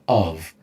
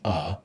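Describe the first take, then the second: First: The word is said in full with a V sound. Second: The word is reduced to a short weak vowel. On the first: "instead of of" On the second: "it's just uh"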